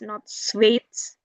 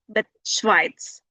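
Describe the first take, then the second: First: The vowel sounds like 'ay'. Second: The vowel sounds like 'eye'. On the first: The speaker calls it wrong. "Not A" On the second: The speaker calls it right. "then you pronounce it I"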